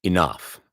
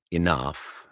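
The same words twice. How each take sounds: First: Enough said flat and final; decisive enough. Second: Said in the usual way. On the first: Shown as a demonstration. Darcy cutting Bingley off firmly. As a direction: clip off Enough as a firm order. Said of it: "It's not decisive enough". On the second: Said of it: "that enough is wrong".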